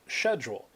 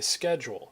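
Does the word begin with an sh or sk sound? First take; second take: sh; sk. First: The word begins with an sh sound. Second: The word begins with an sk sound. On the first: This is the British way of saying it. "but in Britain, they would pronounce that schedule" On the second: This is the American way of saying it. "If you're from the United States, you say schedule"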